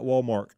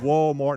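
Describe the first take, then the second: First: It is said with a K sound. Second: It is said with no K sound. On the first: The speaker calls it wrong. "not Walmart" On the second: The speaker calls it right. "There's no K in Walmart. It is Walmart"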